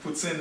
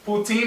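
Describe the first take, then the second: First: It is pronounced the French way. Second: It is pronounced the English way. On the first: "poutine is in French" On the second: "poutine is in English"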